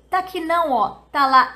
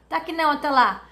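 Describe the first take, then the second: First: The phrase is said slowly with separated words. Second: The phrase is said fast with words run together.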